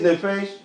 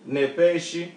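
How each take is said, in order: First: The word ends on the 'sh' sound. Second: A short vowel follows the final 'sh' sound. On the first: This is how a non-native speaker says it. The speaker calls it wrong. "you're just going to say it's nefesh" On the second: This is how native speakers say it. The speaker calls it right. "There's another vowel right here"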